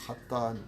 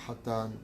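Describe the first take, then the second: Both takes have the same delivery.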